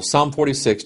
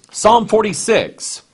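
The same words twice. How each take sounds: First: Said in the usual way. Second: "Psalm forty-six" much higher, louder and slow; emphatic announcement. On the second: Acted. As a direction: call out "Psalm forty-six" to the whole church.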